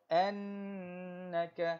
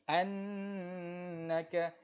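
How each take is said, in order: The two takes are said the same way.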